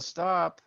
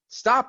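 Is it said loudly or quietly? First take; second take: quietly; loudly. First: It is said softly and gently. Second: It is said loudly and urgently.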